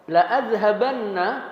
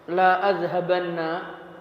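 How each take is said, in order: First: The vowel in 'la' is clipped short. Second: The vowel in 'la' is drawn out long. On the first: I will certainly go. "lamnya pendek" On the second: I will not go. "Lamnya panjang"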